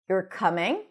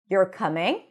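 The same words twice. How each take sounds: First: The pitch rises at the end. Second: The pitch rises at the end.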